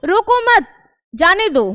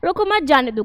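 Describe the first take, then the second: First: There is a pause right after mat. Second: It is said without any pause. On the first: "विराम चिन्ह था वो मत के पास लग गया" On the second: "ठहराव नहीं है"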